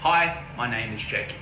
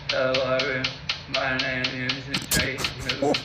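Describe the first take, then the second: First: The speech sounds clear and normal. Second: The speech sounds impaired and unclear.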